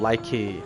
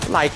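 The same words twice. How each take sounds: First: The word ends with an added vowel sound. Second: The word ends on a k sound. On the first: The speaker calls it wrong. "ou like" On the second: The speaker calls it right. "Então ele é mudo"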